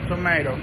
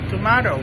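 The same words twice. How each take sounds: First: It is said in an American accent. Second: It is said in a British accent. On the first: "In American English is tomato" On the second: "In British English is tomato"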